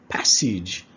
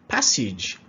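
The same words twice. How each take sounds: Both takes have the same delivery.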